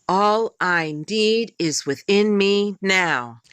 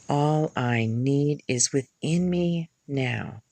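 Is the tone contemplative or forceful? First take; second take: forceful; contemplative. First: It is said forcefully and with determination. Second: It is said quietly and contemplatively.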